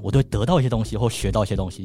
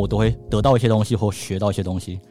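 First: It is said in a curious, lively tone. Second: It is said in a steady, even tone. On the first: The speaker feels eager to do the task. "就感觉有点好像想要去做的感觉" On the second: The speaker feels neutral about the task. "这样是一个比较平稳的讲法"

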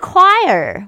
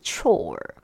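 First: It is said like 'kwire', rhyming with 'fire'. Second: It is said like 'chore', rhyming with 'more'. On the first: The speaker calls it right. "才发现这个字竟然念choir" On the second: The speaker calls it wrong. "这个字如果照字面上的发音看起来很像是chore"

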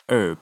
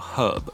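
First: American accent, with a silent h. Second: British accent, with a pronounced h.

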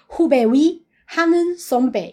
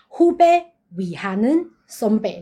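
First: There is a break right after 후배위. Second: There is a break right after 후배.

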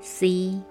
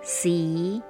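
First: The pitch stays level throughout. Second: The pitch rises at the end.

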